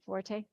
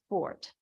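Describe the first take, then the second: First: The word is said with two syllables. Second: The word is said with one syllable. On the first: This is how the family says its own name. "Is it Forte?" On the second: This is the dictionary's preferred pronunciation. "the first preferred pronunciation of F O R T in the dictionary is"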